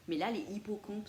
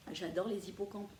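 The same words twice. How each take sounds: First: "les hippocampes" with no z liaison, les / hippocampes kept apart. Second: "les hippocampes" linked with a z, lé-z-ippocampes; with liaison. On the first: Asking Caro which is right, "les hippocampes" said without liaison. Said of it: "c'est moche". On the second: Settling on her own choice, "les hippocampes" said with the z liaison. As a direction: join "les hippocampes" with a z sound. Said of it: "on dit les hippocampes ou les hippocampes". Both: Shown as a demonstration.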